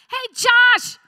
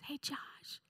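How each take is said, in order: First: It is shouted loudly and harshly. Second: It is said softly and gently.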